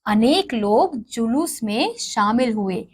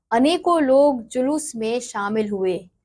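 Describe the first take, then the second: First: अनेक stressed with a falling tune as the fix; corrected sentence. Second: अनेकों read with prominence as the faulty word; wrong sentence. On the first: Teacher reads the correct sentence with अनेक to the class. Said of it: "उसके शुद्ध वाक्य दिए गए हैं". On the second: Teacher reads the incorrect sentence with अनेकों to the class. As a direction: lean on अनेकों as the error in the sentence. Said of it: "कुछ अशुद्ध वाक्य दिए गए हैं". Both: Shown as a demonstration.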